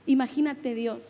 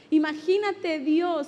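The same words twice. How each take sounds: First: Said in the usual way. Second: "Imagínate Dios" drawn out slow, each word leaned on; preacher repeats "Imagínate Dios" slowly to drive it home; slowed emphasis. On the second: Shown as a demonstration. Preacher to congregation, slowly stressing "Imagínate Dios".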